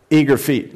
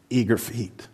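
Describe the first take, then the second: First: Eager stressed, full voice; emphatic repeat. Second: Softly, drawing them in; hushed eager feet; soft intro. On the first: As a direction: land the word Eager firmly. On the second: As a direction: say it gently, almost to yourself. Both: Shown as a demonstration.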